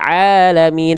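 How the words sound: The voice is clear, all air through the mouth. The speaker calls it right. "tapi alamin semuanya masuk ke dalam rongga mulut"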